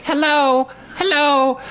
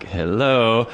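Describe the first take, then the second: First: Put-on very high piping child voice; toddler girl. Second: Said in the usual way. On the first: Toddler climbing up at his table, squeaky greeting. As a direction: chirp it like a little girl. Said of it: "Was like".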